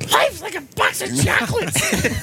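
It is said in a Gonzo impression voice.

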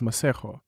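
The name is said with a South African pronunciation. This is how the name is properly said. "Though I am aware that it's Maségo. But no American's gonna say that"

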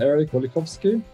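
The name is said with Norwegian pronunciation. "if you would want the Norwegian pronunciation where I'm from"

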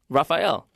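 The name is said the American way. "In America, Rafael. like the Ninja Turtle"

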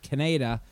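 It is said in a Canadian-style accent.

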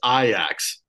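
The name is said the Dutch way.

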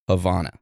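Havana is said with a British pronunciation. "In the UK"

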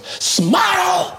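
The word is shouted loudly and harshly. An angry, impatient demand. "this cute old lady turned into a demon"

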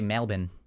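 Melbourne is said the Australian way. "in Australian, they say Melbourne"

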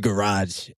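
It is said with an American accent. "It's garage in the US"

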